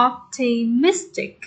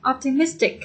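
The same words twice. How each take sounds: First: "Optimistic" slowly in syllables, weight on -MIS-; stress on third syllable. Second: Said in the usual way. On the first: Shown as a demonstration. Teacher showing students the third syllable, stress on third syllable. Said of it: "Nhấn ba". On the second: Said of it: "Nhấn âm ba".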